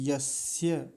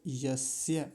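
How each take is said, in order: No difference in how they are said.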